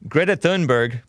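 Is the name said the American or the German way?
American. The name is said with an American pronunciation. "I'm going to say it the so-called American way"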